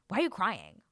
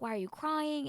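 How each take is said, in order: First: It is said in a harsh, scolding tone. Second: It is said in a gentle, caring tone.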